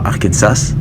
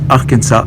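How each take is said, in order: First: The final S is pronounced. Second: The final S is silent. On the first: The speaker calls it wrong. "et non pas Arkansas" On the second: The speaker calls it right. "on prononce Arkansas"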